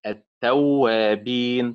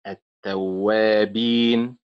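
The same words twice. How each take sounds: First: Slow التوابين, stressed on تو; wrong early stress. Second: Slow التوابين, stressed on وا; stress on middle syllable. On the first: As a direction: punch تو in التوابين, stretched out. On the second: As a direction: lean on وا in التوابين, stretched out. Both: Shown as a demonstration. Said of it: "وليست التوابين".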